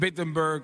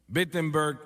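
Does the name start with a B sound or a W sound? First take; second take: W sound; B sound. First: The name starts with a W sound. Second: The name starts with a B sound. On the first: The speaker calls it wrong. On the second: The speaker calls it right.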